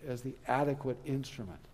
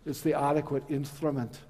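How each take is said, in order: First: It is said in the speaker's normal accent. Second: It is said in a Scottish brogue.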